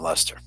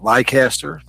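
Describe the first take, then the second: First: The name is pronounced the British way. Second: The name is pronounced the American way. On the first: "John Lester, the first, pronounced it John Lester" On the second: "being American, we we pronounced it Leicester"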